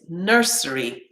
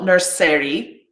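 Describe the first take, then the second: First: The ending has a weak, reduced vowel. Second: The ending has a full, strong vowel. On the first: The speaker calls it right. "it's nursery" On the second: The speaker calls it wrong. "it's not nursery"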